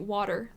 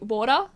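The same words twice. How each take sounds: First: It is said in an American accent. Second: It is said in an Australian accent. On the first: "like an American" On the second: "like an Australian"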